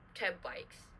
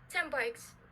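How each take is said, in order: First: The n of ten fully becomes the next sound. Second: The n of ten partly shifts toward the b. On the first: The speaker calls it wrong. "and not ten, ten bikes. That is pretty silly" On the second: The speaker calls it right. "for partial, it doesn't really fully adapt the sound next to it"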